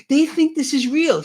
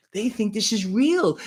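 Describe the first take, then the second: First: Higher and louder, mocking the elites; mocking sneer. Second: Said in the usual way. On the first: Host mocks politicians laughing at voters, in a high, louder sneer. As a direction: sneer it like a gloating insider.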